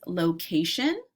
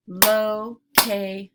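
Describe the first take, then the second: First: Said in the usual way. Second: "Location" slowly split as lo, ca, tion; louder, with a gap after each syllable of "Location"; segmented into syllables. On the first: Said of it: "I'll say the word". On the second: Shown as a demonstration. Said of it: "segment words into syllable parts".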